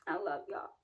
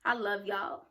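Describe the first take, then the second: First: Softer, lower, almost to herself; a quiet, tender echo of the first take; soft repeat. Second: Said in the usual way. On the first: Real, not acted. Repeating affectionate sign-off.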